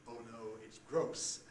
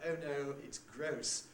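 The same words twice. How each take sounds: First: The 'oh' vowel starts back and rounded. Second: The 'oh' vowel starts central, like schwa. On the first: The older conservative generation says it this way. "as their parents would do" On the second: Young trendy speakers say it this way. "people such as the Valley Girls in California ... who say"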